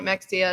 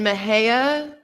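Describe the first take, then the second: First: The middle consonant sounds like ks. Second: The middle consonant sounds like an h. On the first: The speaker calls it wrong. "kept getting told if I keep calling it Mexia" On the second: The speaker calls it right. "I have finally gotten that one right"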